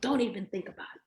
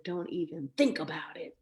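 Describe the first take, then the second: First: Higher, fast spoken warning; brisk mock threat at full voice; quick voiced warning. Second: Voiceless whispered warning; hushed mock threat, no voice; imitated whisper. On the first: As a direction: rattle the warning off aloud. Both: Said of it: "like that".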